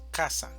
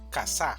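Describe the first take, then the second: First: The stress is on the first syllable. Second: The stress is on the second syllable. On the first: The speaker calls it right. "Pero la pronunciación correcta en español es" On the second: The speaker calls it wrong. "Si esta mayor fuerza de voz estuviera en la segunda sílaba, diríamos"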